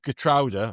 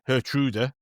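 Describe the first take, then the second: First: The name begins with a hard G sound. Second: The name begins with a breathy H sound. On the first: "[name] originally said Gertruda" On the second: "[name]'s been saying Hertruda"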